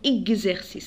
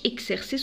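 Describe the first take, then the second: First: The x is sounded as gz. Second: The x is sounded as ks. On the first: The speaker calls it right. "نقولوا اكزرسيس على ننطقها جز" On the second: The speaker calls it wrong. "ما نقولش اكسرسيس"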